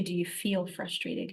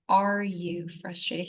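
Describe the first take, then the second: First: Softer question leaning on "feel"; stress on FEEL. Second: Slow, drawn-out "Are" leading the question; stress on ARE. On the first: Quoting what the Lord didn't ask, "feel" stressed. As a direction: make "feel" the key word, quietly. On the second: The Lord questioning her, "Are" stressed and stretched. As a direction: lean pointedly on "Are". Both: Retold or imitated. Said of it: "He didn't ask me".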